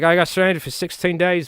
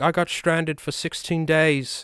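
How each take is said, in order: First: It is said in an Australian accent. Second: It is said without an Australian accent. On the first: "It's a terrible Australian accent" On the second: "that's not Australian"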